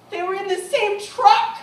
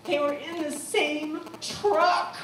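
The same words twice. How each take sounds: First: Much louder and higher, bursting out; excited. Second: Said in the usual way. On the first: Real, not acted. Speaker to audience, bursting out the reveal in excitement. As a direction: shout the revelation in amazement.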